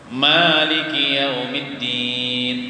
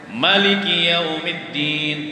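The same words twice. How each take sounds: First: The first vowel of Maliki is long. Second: The first vowel of Maliki is short. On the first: This follows the reading the speaker's community uses. "maknya tuh panjang. Sa alif atau dua harakat" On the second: This follows another recognized reading. "ada kiraat yang lain"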